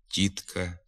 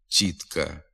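First: The soft t is plain with no hiss. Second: The soft t has a hissing ts-like sound. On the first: The speaker calls it right. "треба вимовляти" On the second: The speaker calls it wrong. "вимовляються зі свистячим відзвуком"

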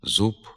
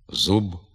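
First: The final consonant is voiceless, like a p. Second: The final consonant is voiced, a clear b. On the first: This is a south-western dialect pronunciation. The speaker calls it wrong. "вимовляються як відповідні глухі" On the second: This is the literary standard pronunciation. The speaker calls it right. "Треба зберігати дзвінку вимову приголосних"

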